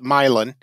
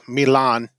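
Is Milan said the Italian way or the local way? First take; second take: local; Italian. First: It is pronounced the local town way. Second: It is pronounced like the Italian city. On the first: It is how the people who live there say it. "us locals call it Milan" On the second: It sounds fancy, like the city in Italy. "all fancy, you can call it, you know, Milan, like Italy"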